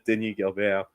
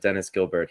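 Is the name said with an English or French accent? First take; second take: French; English. First: The name is said with French sounds. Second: The name is said with English sounds.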